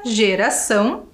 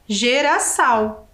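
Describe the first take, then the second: First: The final vowel is nasal. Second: The final vowel is oral, not nasal. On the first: The speaker calls it right. "o tio justamente ele atribui esse som à vogal" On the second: The speaker calls it wrong. "se não tivesse o tio ali, ficaria geraçal"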